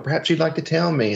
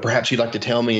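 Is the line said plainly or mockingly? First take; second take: mockingly; plainly. First: It is said in a mocking, imitating way. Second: It is said in a plain, straight way.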